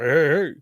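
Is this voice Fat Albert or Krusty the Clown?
Fat Albert. It is said in a Fat Albert voice.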